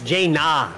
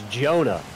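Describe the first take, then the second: First: The first vowel sounds like 'ay'. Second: The first vowel sounds like 'oh'. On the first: The speaker calls it right. "Brother, that's Jaina" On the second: The speaker calls it wrong. "Apparently it's pronounced Jonah, but that man needs O if you want that pronunciation"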